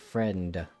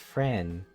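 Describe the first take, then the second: First: The final D sound is pronounced. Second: The final D sound is left off. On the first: "instead of" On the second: "have difficulty pronouncing the word D"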